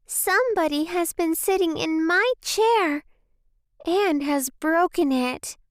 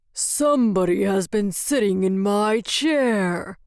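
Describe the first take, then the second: First: Squeaky little bear, pitched high; small squeaky baby voice. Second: Gruff Father Bear growl; growly roar. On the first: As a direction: pipe up like a tiny bear cub. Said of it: "said in a small, squeaky baby voice". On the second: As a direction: roar it like a big bear, without shouting. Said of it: "roared with a growly voice". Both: A narrator's reading.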